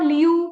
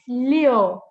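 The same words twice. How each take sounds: First: LIU ending in oo, like "lee-oo"; mispronounced LIU. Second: LIU ending in an open o, like "lyo"; correct LIU vowel. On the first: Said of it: "It's not liu". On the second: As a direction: open your mouth on the end of LIU. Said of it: "Oh, open your mouth". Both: Shown as a demonstration.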